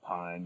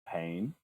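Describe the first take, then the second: First: The vowel sounds like the one in 'pine'. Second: The vowel sounds like the one in 'pain'. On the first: This is the anglicised pronunciation the band adopted. The speaker calls it wrong. "ignored their like correct pronunciation and was just like, yeah, pine" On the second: This follows the original Dutch pronunciation. The speaker calls it right. "if we're being like true to the, the Dutch language that it's that it's lifted from, we should be saying more like pain"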